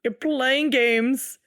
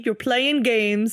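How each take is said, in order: First: Slow, drawn-out mock drama; slow mock-dramatic tease. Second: Slow, drawn-out tease; slow teasing accusation. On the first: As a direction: drag it out like a soap star. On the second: Acted. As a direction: stretch every word, teasing.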